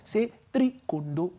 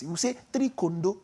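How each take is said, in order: First: Slower "three kondo", rising on "three"; Nigerian three kondo. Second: "three kondo" with a rising Nigerian lilt. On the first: Correcting his cohost, "three kondo" slow with a rise. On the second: Teaching his cohost the Nigerian score: "three kondo" with rising lilt. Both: Shown as a demonstration.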